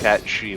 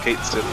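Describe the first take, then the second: First: The name sounds like 'cat she'. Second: The name sounds like 'kate sith'. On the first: This is the official pronunciation. "it is pronounced Cat She" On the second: This is the habitual personal pronunciation. "I'm gonna call him Kate Sith forever"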